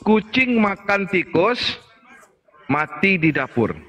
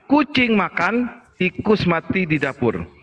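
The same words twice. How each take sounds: First: There is a pause after the word tikus. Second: There is a pause after the word makan. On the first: The cat died in the kitchen. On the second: The mouse died in the kitchen.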